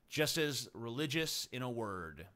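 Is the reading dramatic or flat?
flat. It is read in a flat, plain way. The speaker calls it wrong.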